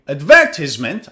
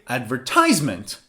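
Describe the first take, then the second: First: The stress is on the second syllable. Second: The stress is on the third syllable.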